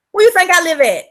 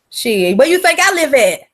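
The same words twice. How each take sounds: First: Louder and higher, pressing the point; loud, higher emphatic repeat. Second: Louder, flat challenge; loud rhetorical question. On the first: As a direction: push it harder the second time. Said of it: "repeats question higher". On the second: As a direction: toss the question out at the chat. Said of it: "repeats question for emphasis". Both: Real, not acted.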